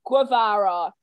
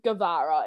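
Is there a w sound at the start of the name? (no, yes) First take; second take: yes; no. First: It starts with a w sound after the g. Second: It starts with a plain g and no w. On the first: The speaker calls it wrong. "the most frequent pronunciation is Guevara, where are you getting the W from?" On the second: The speaker calls it right. "not Guevara"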